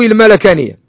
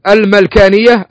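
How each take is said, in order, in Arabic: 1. يلي الحرف 'l' صوت الفتحة القصيرة 'a'. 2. لا يلي الحرف 'l' أي حركة. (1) "أو بالفتح" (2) "إما بالإسكان"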